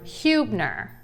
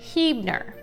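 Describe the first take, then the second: First: The first syllable sounds like 'hue'. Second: The first syllable does not sound like 'hue'. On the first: The speaker calls it wrong. "focus on the hue of the word" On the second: The speaker calls it right. "it's actually pronounced Hebner"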